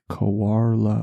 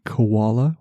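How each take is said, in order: First: The word is said with an R sound. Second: The word is said without any R sound. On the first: The speaker calls it right. "there's an R in there somewhere" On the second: The speaker calls it wrong. "which is how I pronounce it"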